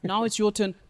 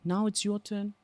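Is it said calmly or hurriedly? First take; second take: hurriedly; calmly. First: It is said hurriedly without a silence. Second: It is said calmly after a silence.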